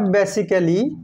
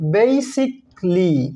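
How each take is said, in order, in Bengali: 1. শেষের a টি উচ্চারিত হয়। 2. শেষের a টি নীরব থাকে। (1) "নট" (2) "সাইলেন্ট থাকে"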